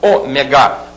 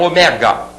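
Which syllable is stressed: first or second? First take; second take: first; second. First: The stress is on the first syllable. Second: The stress is on the second syllable. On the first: The speaker calls it right. "Proparoxítona" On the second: The speaker calls it wrong. "e não ômega"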